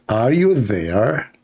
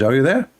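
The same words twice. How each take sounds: First: Very slow, stretched mock British accent; attempted English accent. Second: Said in the usual way. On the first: Shown as a demonstration. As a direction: draw it out in a bad English accent. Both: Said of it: "let me speak in the English accent".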